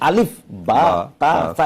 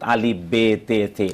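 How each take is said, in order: First: The letter names end in an a vowel. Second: The letter names end in an e vowel. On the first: The speaker calls it right. "এটা হলো অ্যারাবিক অ্যালফাবেটের উচ্চারণ" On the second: The speaker calls it wrong. "এটা হলো উর্দু অ্যালফাবেটের উচ্চারণ"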